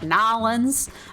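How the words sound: The name is squeezed short, sounding like Nolans. A local from the city said it. "she's from New Orleans and she pronounces it like Nolans"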